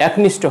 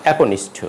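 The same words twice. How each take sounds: First: একনিষ্ঠ with k running into n; no linking vowel. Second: একনিষ্ঠ with "o" after k; একনিষ্ঠ in four syllables, ae-ko-nish-tho; linking vowel sounded. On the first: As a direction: say একনিষ্ঠ as "ak-nishtho". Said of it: "হবে না". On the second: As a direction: say একনিষ্ঠ as "aeko-nishtho". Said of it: "হবে". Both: Shown as a demonstration.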